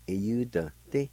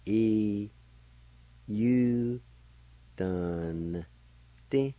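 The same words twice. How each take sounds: First: "E, U, dun, di" run together as one word; joined-up pronunciation. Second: "E, U, dun, ti" each held, with long gaps; syllable by syllable. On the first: Teacher putting the word together for learners, "E, U, dun, di" joined up. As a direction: say "E, U, dun, di" with short syllables, no long gaps. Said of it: "pronounce the N sound with the D V like this". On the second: Teacher showing N joined to D V, "E, U, dun, ti" slowly broken up. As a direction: sound out "E, U, dun, ti" one piece at a time. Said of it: "You can pronounce the N sound with the D V like this".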